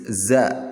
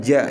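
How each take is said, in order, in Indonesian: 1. Suku kata ini diawali bunyi z. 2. Suku kata ini diawali bunyi j. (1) "tapi z" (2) "bukan ja ya"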